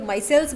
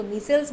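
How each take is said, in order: First: माइसेल्स with first syllable like "my"; variant pronunciation. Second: मीसेल्स with long ee, not "my"; variant pronunciation. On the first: Teacher contrasting the versions people use, माइसेल्स pronounced "MY-selz". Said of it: "इसका pronunciation बहुत लोग". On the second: Teacher contrasting the versions people use, मीसेल्स pronounced "MEE-selz". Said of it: "कुछ लोग इसको". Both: Shown as a demonstration.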